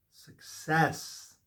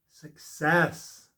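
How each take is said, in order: First: A breathy whisper of the word. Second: Firm declaration. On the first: Tarot reader whispering the card's meaning to the viewer. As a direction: whisper it like a secret blessing. Repeats card name, first take. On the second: Tarot reader declaring the card to the viewer, firm and louder. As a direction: say it out, louder and sure. Repeats card name, second take. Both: Acted.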